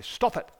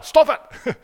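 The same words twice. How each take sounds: First: Raised pitch, firm parental telling-off; scolding parent. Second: Mock yell at a sibling, high and loud; annoyed sibling. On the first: Retold or imitated. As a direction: imitate a parent checking a child. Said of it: "mum and dad probably say that to you". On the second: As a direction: snap loudly like a squabbling child. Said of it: "You probably say it to your siblings".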